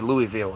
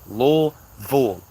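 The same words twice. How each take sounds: First: It is pronounced the way outsiders say it. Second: It is pronounced the way locals say it. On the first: The speaker is not from the city. The speaker calls it wrong. "they say Louisville every time" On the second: The speaker is from the city. The speaker calls it right. "It's Louisville"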